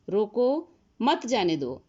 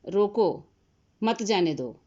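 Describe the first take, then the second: First: There is a pause right after 'roko'. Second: There is a pause right after 'roko'.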